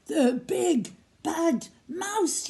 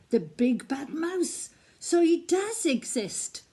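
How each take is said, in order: First: High, slow, drawn-out yell; frightened yell. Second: Said in the usual way. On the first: Acted. Gruffalo's child sees the mouse's shadow, frightened yell. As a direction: cry out in fright. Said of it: "yelled the Gruffalo's child".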